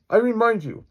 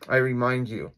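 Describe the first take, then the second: First: High, loud, indignant insistence; emphatic high-pitched warning; insistent police chief. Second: Said in the usual way. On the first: Acted. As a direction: pitch it way up and louder. Chief's line, redone higher and louder.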